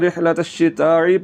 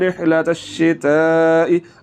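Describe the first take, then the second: First: A throaty squeezed sound comes before the final vowel. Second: A light glottal stop comes before the final vowel. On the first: The speaker calls it wrong. "तो फिर ऐन पढ़ा जाएगा, जो कि गलत है" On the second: The speaker calls it right. "कैसे पढ़ना है?"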